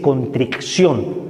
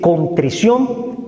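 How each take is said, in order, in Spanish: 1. Se oye un sonido k antes de la terminación -ción. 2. No se oye un sonido k antes de la terminación -ción. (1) "no se dice" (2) "se dice"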